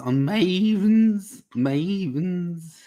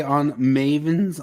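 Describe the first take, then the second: First: Mavens stretched long with a higher pitch; drawn-out word. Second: Said in the usual way. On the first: Real, not acted. Host prompting panel for more on Mavens, stretching Mavens high and long. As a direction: draw out the first vowel of Mavens playfully.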